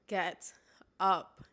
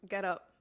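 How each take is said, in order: First: It is said strongly and firmly. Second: It is said softly, without force.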